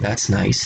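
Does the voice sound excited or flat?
excited. It is said with excitement in the voice. The speaker calls it wrong.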